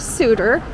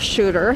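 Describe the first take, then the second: First: The name begins with a plain s sound. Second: The name begins with an sh sound. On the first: "I would prefer to call it Suter Street" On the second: "There is a bit of a debate on the pronunciation"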